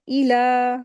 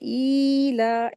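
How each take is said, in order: First: The first vowel is kept short. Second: The first vowel is stretched out long. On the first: The speaker calls it right. "बस इसको पढ़ना भी है, उसको खींचना भी नहीं है" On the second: The speaker calls it wrong. "ऐसे नहीं"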